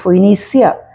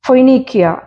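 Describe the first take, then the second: First: The consonant before the ending is an s sound. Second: The consonant before the ending is a k sound.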